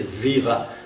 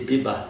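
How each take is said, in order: First: The word starts with a V sound. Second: The word starts with a B sound. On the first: "they don't say viva" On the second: "they say biba"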